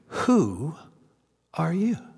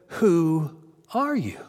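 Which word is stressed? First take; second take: who; are. First: The word "who" is stressed. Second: The word "are" is stressed. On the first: "The word he emphasizes in this three-word question? Was it" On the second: "Or was it"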